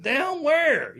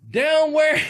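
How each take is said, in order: First: Loud, high, baffled "down where?"; a high confused retold question; puzzled. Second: Loud, high, baffled "down where?"; a loud high confused question; puzzled. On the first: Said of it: "I said". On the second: Retold or imitated. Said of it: "I say". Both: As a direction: blurt it out, genuinely confused.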